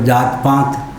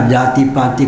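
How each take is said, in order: First: Both words end without the 'i' vowel. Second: Both words end with an 'i' vowel. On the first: This is a regional pronunciation. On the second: This is the standard form.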